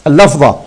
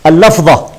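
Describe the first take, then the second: No difference in how they are said.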